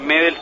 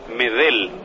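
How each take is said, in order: First: The stress is on the first syllable. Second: The stress is on the last syllable. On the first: The speaker calls it wrong. "si fuera Medel ya sería una palabra grave" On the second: The speaker calls it right. "es Medel"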